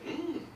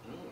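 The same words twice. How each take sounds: First: The mm is drawn out in a dramatic way. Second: The mm is said in a plain, ordinary way. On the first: "Now you want to get dramatic" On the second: "sounds like this"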